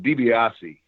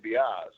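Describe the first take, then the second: First: The whole name is said, final vowel included. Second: The first syllable and final vowel are dropped. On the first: "is the the uh, correct pronunciation" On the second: "they would drop the D I"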